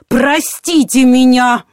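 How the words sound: It is said in a pointed, venomous tone. A reproach for being ignored.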